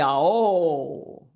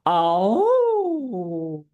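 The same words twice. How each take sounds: First: The vowel is produced in a heavier chest voice. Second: The vowel is produced in a light head voice. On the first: The speaker calls it wrong. "So it could be oh" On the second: The speaker calls it right. "I'm using my head voice a bit there"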